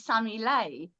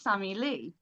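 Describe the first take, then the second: First: The surname ends with an 'ay' vowel sound. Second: The surname ends with an 'ee' vowel sound. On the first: This is the originally intended pronunciation. "it was basically supposed to be Sammy Lay" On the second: This is how other people pronounce it. "people kept pronouncing it Sammy Lee"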